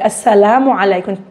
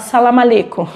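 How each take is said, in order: First: It starts with 'as' and keeps the linking 'u'. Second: The opening syllable and linking vowel are dropped. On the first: The speaker calls it right. "O correto é assalamu alaikum" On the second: The speaker calls it wrong. "vocês já devem ter ouvido falar salam aleikum"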